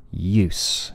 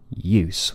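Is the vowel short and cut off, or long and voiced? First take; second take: short; short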